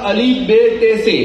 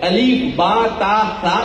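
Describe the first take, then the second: First: The letter names end in an 'e' vowel. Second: The letter names end in an 'a' vowel. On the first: This is the old local way of reading. The speaker calls it wrong. "ये गलत है" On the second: This is the proper Arabic way of reading. The speaker calls it right. "इस तरह से पढ़ना चाहिए"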